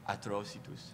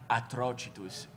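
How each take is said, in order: First: It is said with an American pronunciation. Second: It is said with a stronger Italian pronunciation.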